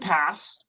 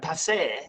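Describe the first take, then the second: First: The name is said with an English pronunciation. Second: The name is said with a French pronunciation. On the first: The speaker calls it right. "I learned how to pronounce it correctly" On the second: The speaker calls it wrong. "trying to throw a little like French into it"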